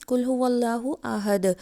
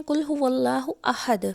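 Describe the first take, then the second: First: Light "h" in अहद, no throat squeeze; chest ha. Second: अहद with a breathy mid-throat Arabic ح; throaty ha. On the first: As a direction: recite कुल हुवल्लाहु अहद with plain chest "h" in अहद. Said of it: "दो आँखों वाला हा". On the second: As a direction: recite कुल हुवल्लाहु अहद with pharyngeal "h" in अहद. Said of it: "हलक के दरमियान से अदा किया जाता है". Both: Shown as a demonstration.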